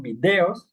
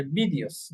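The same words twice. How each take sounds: First: Videos in Spanish, "bi-DE-os", stress on the e; pronunciación española. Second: Videos the English way, "VI-dyos", stress up front; pronunciación inglesa. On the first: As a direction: keep a full stressed e in videos. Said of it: "En español decimos videos". (videos en español, acentuando la e) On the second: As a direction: turn the e of videos into a quick i. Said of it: "en English dice videos". (videos en inglés, con énfasis en la primera sílaba) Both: Shown as a demonstration.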